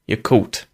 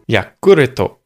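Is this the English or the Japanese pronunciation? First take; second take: English; japanese. First: The word is said the English way, in two syllables. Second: The word is said the Japanese way, in four syllables. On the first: "I think I'd say Yakult" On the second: "In Japan, we say it Yakuruto"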